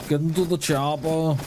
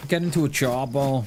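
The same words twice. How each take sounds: First: Lightly put-on Austrian action-hero accent, barely there; a half-hearted Austrian muscleman growl on chopper; bad Arnie accent. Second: Said in the usual way. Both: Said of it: "That is probably the worst Arnie accent ever".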